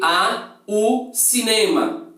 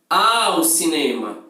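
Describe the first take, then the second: First: The two small words are said separately. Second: The two small words are joined together. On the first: The speaker calls it wrong. "você não vai falar" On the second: The speaker calls it right. "Você vai falar ao cinema"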